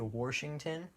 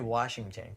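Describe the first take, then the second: First: The first syllable is not a plain 'wash'. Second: The first syllable is a plain 'wash'. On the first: It is how people from that state say it. "people from Washington they say Washington" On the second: It is how the speaker says it. "I say Washington because it's W A S H, wash"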